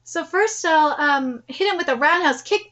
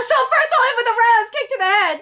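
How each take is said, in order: First: Said in the usual way. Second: High, excited character voice; eager fighter. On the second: Acted. Planning the first kick on meeting him, high and eager. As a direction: announce the attack high and keen. Same line redone in character.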